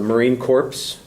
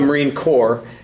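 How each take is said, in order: First: Corps is said like corpse, ending in p-s. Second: Corps is said like core, with no p-s. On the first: It refers to a dead Marine. The speaker calls it wrong. "that's completely wrong. A Marine Corps is a dead Marine" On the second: It refers to the military branch. The speaker calls it right. "it's the Marine Corps"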